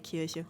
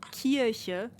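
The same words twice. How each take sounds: First: The final vowel is relaxed and weakly pronounced. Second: The final vowel is fully and clearly pronounced. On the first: "I just say Kirche, like it's very like very relaxed at the back of the throat" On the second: "especially in the older dialect, ... a very pronounced e"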